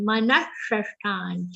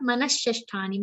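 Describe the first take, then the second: First: Manashashthani with retroflex shatkon sha; correct pronunciation. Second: Manashashthani with the wrong sha; wrong pronunciation. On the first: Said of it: "shatkon sha". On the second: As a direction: show the mistake on manashashthani. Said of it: "not shaljam sha". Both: Shown as a demonstration.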